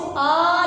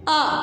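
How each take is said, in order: First: The vowel is drawn out long. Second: The vowel is kept short. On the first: The speaker calls it wrong. "आपने इसको आ नहीं पढ़ना।" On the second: The speaker calls it right. "इसको कैसे पढ़ना है?"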